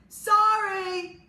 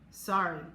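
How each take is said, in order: First: It is yelled loudly. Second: It is mumbled quietly.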